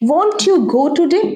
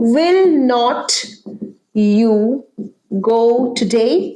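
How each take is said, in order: First: The negative is contracted into one short syllable. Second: The negative is said as two full words.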